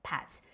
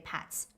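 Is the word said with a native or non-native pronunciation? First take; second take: native; native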